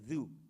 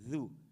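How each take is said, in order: No difference in how they are said.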